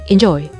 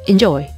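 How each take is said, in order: No difference in how they are said.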